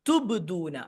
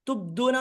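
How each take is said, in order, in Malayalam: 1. "b" വ്യക്തമായ കുതിപ്പോടെ വിടുന്നു. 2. "b" പിടിച്ചുവെച്ചതാണ്, വ്യക്തമായ കുതിപ്പില്ല. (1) "ബ് എന്ന് കൃത്യമായിട്ട് തന്നെ പറയാം" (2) "തുബ്ദൂന എന്ന് പറയാൻ പാടില്ല"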